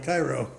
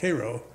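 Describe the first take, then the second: First: The name is said the outsider's way. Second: The name is said the local regional way. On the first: The speaker is from somewhere else. "the people from somewhere else called it Cairo" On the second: The speaker is from the area. "the people from Illinois and Missouri called it Cairo"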